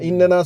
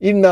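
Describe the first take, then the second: First: It is said in full as innana. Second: It is contracted into the shorter form inna. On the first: This is the original form. "இன்னனா இன்னனா சொல்லி சொல்லி" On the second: This form arose from frequent use. "என்ன ஆகிட்டாங்க இன்ன ஆகிட்டாங்க"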